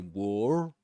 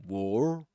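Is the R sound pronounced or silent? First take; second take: pronounced; pronounced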